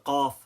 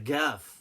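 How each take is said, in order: First: The word begins with a deep Q sound. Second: The word begins with a G sound.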